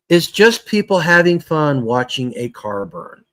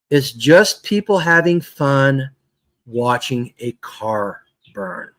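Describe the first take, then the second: First: It is said at a normal pace. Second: It is said very slowly.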